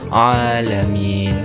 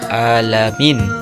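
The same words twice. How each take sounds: First: It starts with a throaty ain sound. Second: It starts with a plain glottal stop. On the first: The speaker calls it right. "seharusnya dibaca" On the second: The speaker calls it wrong. "seolah-olah ain itu hamzah"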